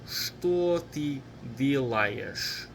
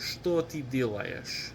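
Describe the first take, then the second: First: The phrase is said at a slow pace. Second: The phrase is said at a fast pace.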